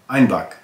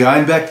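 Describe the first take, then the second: First: The second syllable has an 'ah' vowel. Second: The second syllable has an 'eh' vowel. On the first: This is how Bavarians said the town's name. "with the southern German accent, Bavarian, ... they said Einbach" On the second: This is how the town's name is spelled and said. "they didn't say Einbeck"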